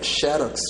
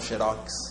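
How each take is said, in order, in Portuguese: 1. A sílaba tônica é a primeira. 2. A sílaba tônica é a última. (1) "a palavra seria xerox. Xerox teria acento, que seria paroxítono" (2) "a gente não deve falar faz um, faz um xerox"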